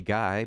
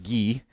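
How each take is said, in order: First: The name is said in an English way. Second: The name is said in a French Canadian way. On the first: "We say Guy" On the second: "it's pronounced Guy in a good French Canadian kind of way of saying it"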